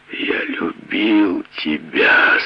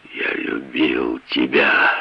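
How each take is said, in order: First: Slow, drawn-out moan; groaning. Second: Heartbroken. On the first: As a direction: groan the words out in pain. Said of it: "со стоном вымолвил он". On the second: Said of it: "Он зарыдал". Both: Acted.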